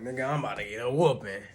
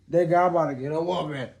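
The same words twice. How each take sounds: First: Said in the usual way. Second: Loud, high panicked cry of dread; panicked yell. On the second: Retold or imitated. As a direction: yell it like the whooping is coming. I'm like.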